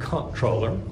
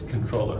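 First: The word begins with a 'comp' sound. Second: The word begins with a 'con' sound. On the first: The speaker calls it wrong. "it looks like comptroller, and Americans will pronounce it that way" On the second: The speaker calls it right. "if you pronounce it with correct French, it's here it's controller"

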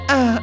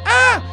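First: It imitates a turtle's strange cry. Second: It is an ordinary human scream. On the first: "Gritaba, ¡ah! Como la tortuguita" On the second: "En vez de gritar"

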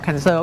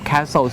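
First: The word sounds like 'cancer'. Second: The word sounds like 'castle'. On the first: It sounds like the word for the disease. The speaker calls it wrong. "อย่าออกเสียง, cancer, นะครับ, cancer, ก็คือมะเร็งนั่นเอง" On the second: It means a large fortified building. The speaker calls it right. "ถ้าจะออกเสียงที่ถูกก็คือออกเสียง, castle"

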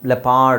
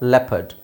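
First: The second syllable has a full 'ar' vowel. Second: The second syllable has a weak schwa vowel. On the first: The speaker calls it wrong. "ಲೆಪಾರ್ಡ್ ಅಲ್ಲ" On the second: The speaker calls it right. "ಇಲ್ಲಿ ARನ ನಾವು ಅ ಅಂತ ಹೇಳಬೇಕು"

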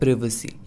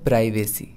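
First: The first syllable sounds like 'priv'. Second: The first syllable sounds like 'pry'. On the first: The speaker calls it right. "Actual में इसका pronunciation होता है" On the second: The speaker calls it wrong. "इसे लोग बोलते हैं"

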